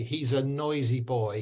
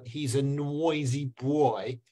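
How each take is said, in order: First: Put-on clean "oi" in "noisy boy", no w; correct English pronunciation. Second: Slow Myanmar accent, "nwoisy bwoy". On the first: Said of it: "when you say". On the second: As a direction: add a learner's Myanmar w glide to "noisy boy". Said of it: "he go". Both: Shown as a demonstration.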